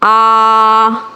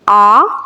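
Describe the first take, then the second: First: The vowel is stretched out long. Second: The vowel is said evenly in a moderate tone. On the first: The speaker calls it wrong. "खींचना किससे कहते हैं? ... ये नहीं करना" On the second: The speaker calls it right. "दरमियाने लहजे में ही मारूफ अंदाज में पढ़ेंगे"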